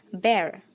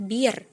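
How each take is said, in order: First: The vowel sounds like 'e' in 'ember'. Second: The vowel is a long 'ee' sound. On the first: The speaker calls it right. "seperti ketika teman-teman mengucapkan kata ember" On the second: The speaker calls it wrong. "Jadi bukan bir ya"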